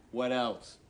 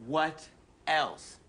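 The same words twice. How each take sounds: First: Said in the usual way. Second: "What", a pause, then "else" on its own; pointed pause. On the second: Acted. Quizmaster pressing for the last sin, pointed pause between "What" and "else". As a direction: split "What ... else?" with a deliberate gap. Repeats question, drawn apart.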